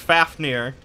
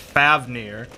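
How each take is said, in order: First: The middle consonant is an F sound. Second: The middle consonant is a V sound. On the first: "I thought was always pronounced Fafnir" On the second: "with like a V sound"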